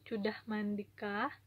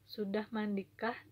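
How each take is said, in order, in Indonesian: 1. Diucapkan dengan suara merengek, kekanak-kanakan. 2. Diucapkan dengan suara biasa dan wajar.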